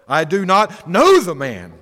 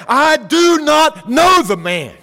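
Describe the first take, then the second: First: Mild oath. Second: Much higher, louder, slow angry shout; cursing denial. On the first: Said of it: "denied it with an oath". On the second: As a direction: fling the denial out like a curse. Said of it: "began to curse and to swear". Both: Retold or imitated.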